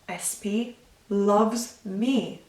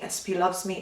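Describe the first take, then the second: First: It is said with feeling and focus. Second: It is said flatly and mechanically, like a robot. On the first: The words are felt and visualized as they are said. "where you are attaching emotion" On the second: The words are repeated without feeling. "like a robot programmed to repeat a phrase a thousand times"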